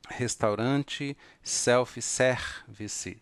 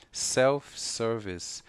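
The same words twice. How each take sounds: First: "self-service" slow as sefi-sevisi; "self-service" with Brazilian extra vowels; "self-service" said the Brazilian way, slowly. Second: "self-service" slow with a clear r; "self-service" said carefully, sir-vis; slow, correct "self-service". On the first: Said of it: "Estas letras têm o som fechado". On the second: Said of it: "pronunciar corretamente". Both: Shown as a demonstration.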